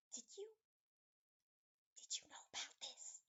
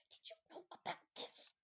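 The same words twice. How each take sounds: First: Hushed, hesitant whisper. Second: Loud, forceful whisper; stage whisper. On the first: Nanny whispers to Ultra Brain, halting whisper. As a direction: whisper it across to a companion. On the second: Nanny points at the lock, harsh loud whisper. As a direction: push the whisper out hard and higher. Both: Acted. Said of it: "she's gonna whisper".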